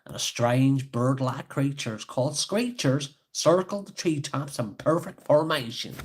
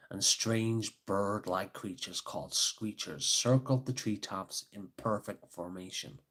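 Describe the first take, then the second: First: Put-on Scottish accent. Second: Put-on American accent. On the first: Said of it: "maybe I should read in a Scottish accent". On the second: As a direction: read it in an American storyteller's accent. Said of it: "when I did the American accent".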